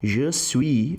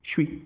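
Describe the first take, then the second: First: Both words are said fully and separately. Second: The two words are squeezed into one syllable. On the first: "se eu tenho, por exemplo, aqui je suis" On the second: "muitas vezes a pessoa vai dizer"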